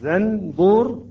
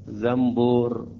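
First: A clear n sound comes before the b. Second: An m sound comes before the b.

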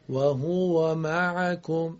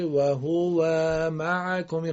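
First: The fatha vowel is kept short. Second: The fatha vowel is drawn out long. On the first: The speaker calls it right. "فتحه نباید کشیده بشه" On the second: The speaker calls it wrong. "ای بشه و هو و معکم غلطه"

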